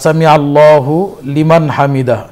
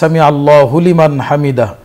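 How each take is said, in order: First: The words are separated with small pauses. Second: The words run together quickly without pauses. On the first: "এটাও ঠিক আছে" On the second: "আর যদি আমরা তাড়াতাড়ি বলি"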